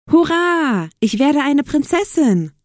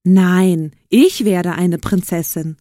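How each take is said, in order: First: High, gleeful stepsister; excited cheer. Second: Loud "Nein", then punched "ich"; contradicting call. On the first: Stepsister who got the ball invitation, cheering excitedly. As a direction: cheer with a long high hurrah. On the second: Other stepsister disputing who becomes princess, calling out with stress on "ich". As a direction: insist with weight on "ich". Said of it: "rief die andere Stiefschwester". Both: A narrator's reading.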